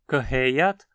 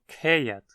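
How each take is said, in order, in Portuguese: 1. A palavra começa com um prefixo antes de um som de h. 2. A palavra começa com um único som de k.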